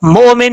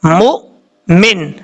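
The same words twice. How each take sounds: First: مومن with a long o gliding into min; wrong reading without hamza. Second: مؤمن broken by a full stop after mu; with a jerk. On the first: Teacher showing what not to read, smooth long-o مومن. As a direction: stretch the o in مومن with no stop. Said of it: "مومن نہیں پڑھنا". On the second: Teacher correcting the reading for students, jerked two-part مؤمن. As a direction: cut the mu of مؤمن short, pause, then min. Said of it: "جھٹکے کے ساتھ پڑھا جائے گا". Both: Shown as a demonstration.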